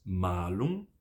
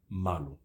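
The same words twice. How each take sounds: First: Malum with a long held a; drawn-out maa-lum; long vowel. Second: Malum with a short a; quick, low malum; short vowel. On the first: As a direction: stretch "ma" in malum, low. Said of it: "uma tem vogal longa". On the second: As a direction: clip the "ma" of malum, low and soft. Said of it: "a outra tem vogal breve". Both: Shown as a demonstration.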